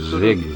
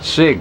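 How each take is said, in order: First: It begins with a Z sound. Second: It begins with an S sound. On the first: "he's saying Zig" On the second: "with like an S sound, as is written"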